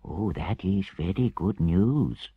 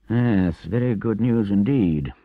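First: Slow, grave Mole; understated solemn approval, drawn out. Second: Doubtful Rat, higher and louder; dubious. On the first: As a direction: receive the news with measured seriousness. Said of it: "said the Mole gravely". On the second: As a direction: agree while not quite believing it. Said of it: "observed the Rat dubiously". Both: A narrator's reading.

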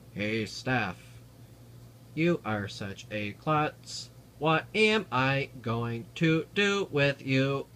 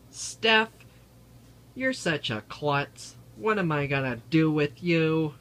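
First: Flat, slow robot voice. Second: Loud, high teasing call-out; teasing shout. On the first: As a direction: talk like a speech synthesizer. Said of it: "robot voices that Stephen Hawking uses". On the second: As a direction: shout it playfully at Steph. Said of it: "and he's going to say". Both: Pretend.

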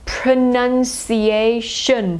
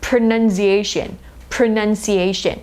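First: "pronunciation" stretched very slowly, schwa at start and end. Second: "pronunciation" at normal speed with weak schwas; natural pronunciation. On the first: Teacher slowly models schwas in pronunciation. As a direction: draw out every syllable of "pronunciation". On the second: Teacher says pronunciation at normal speed. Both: Shown as a demonstration. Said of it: "ตัวข้างหลังเป็นสระเออ".

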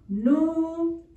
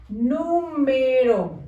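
First: "Nu-me-ro" in long, separated syllables; "Nu-me-ro" stretched out for children writing. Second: "Número" slow but joined up as one word; "Número" drawn out without breaks; whole word slowly. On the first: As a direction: dictate "Nu-me-ro" syllable by syllable, holding the M. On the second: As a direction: read back "Número" whole, gently stretched. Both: Shown as a demonstration. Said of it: "escribimos número".

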